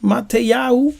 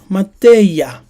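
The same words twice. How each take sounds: First: Mateyahu with a rising end and the extra -yahu; Mateyahu, ma-te-YA-hu, lifted at the end; Yiddish form of the name. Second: Mateya in three falling syllables, ma-TE-ya; correct name. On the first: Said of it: "Not Matenyahu". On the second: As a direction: Mateya set firmly as the right form, falling. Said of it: "It's Mateya". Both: Shown as a demonstration.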